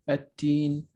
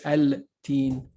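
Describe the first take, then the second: First: The L is silent and the t is doubled. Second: The L is clearly pronounced before the t. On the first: The speaker calls it right. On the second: The speaker calls it wrong.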